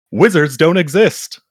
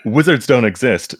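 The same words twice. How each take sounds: First: High, rising, fighting back a laugh; "Wizards don't exist" said high and rising, laugh bursting through; about to crack up. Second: "Wizards don't exist" said steadier and falling, laugh held back; composed indignant read. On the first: Real, not acted. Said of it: "I told myself I was gonna get through that line without laughing". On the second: Acted. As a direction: keep a straight face, then read it indignantly. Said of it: "get through that line without laughing".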